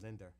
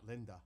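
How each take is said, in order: First: The name ends in an 'er' sound. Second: The name ends in a plain 'ah' sound. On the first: "like the E R" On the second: "not Linda"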